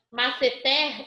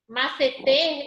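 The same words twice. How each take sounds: First: The final stressed vowel is open. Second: The final stressed vowel is closed. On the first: "eu tenho som aberto com acento agudo" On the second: "o som fechado, que é com o circunflexo"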